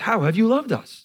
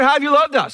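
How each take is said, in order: First: It sounds sincere and earnest. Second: It sounds complaining and displeased.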